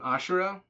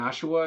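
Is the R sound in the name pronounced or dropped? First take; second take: pronounced; dropped. First: The R sound in the middle is pronounced. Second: The R sound in the middle is dropped.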